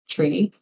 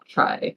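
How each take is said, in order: First: The vowel is a long ee sound. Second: The vowel is a long eye sound. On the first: It sounds more magical. "I called P R I tree" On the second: It echoes a familiar game term. "I didn't call it try"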